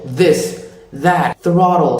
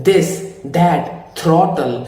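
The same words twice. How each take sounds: First: "this, that, throttle" with airy th; tongue between the teeth on "this, that, throttle"; American TH. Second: "this, that, throttle" with hard d and t for th; Indian-accented TH. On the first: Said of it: "a big H in front". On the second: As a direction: stiff tongue, th as stops in "this, that, throttle". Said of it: "sound like an Indian". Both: Shown as a demonstration.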